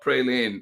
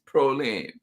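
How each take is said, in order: First: The first syllable sounds like 'pray'. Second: The first syllable sounds like 'pro'. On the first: The speaker calls it wrong. "not praline" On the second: The speaker calls it right. "It's proline"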